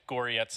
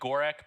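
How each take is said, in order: First: The name ends with a 'ts' sound. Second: The name ends with a hard 'k' sound. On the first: The speaker calls it right. "it's pronounced close to Goretz" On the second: The speaker calls it wrong. "It looks like Gorek"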